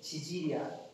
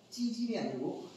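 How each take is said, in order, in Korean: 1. 첫 자음은 평음이고 힘을 빼고 발음해요. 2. 첫 자음은 된소리이고 힘을 줘서 발음해요. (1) "발음 잘해야 돼. 지질이야" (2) "아니고"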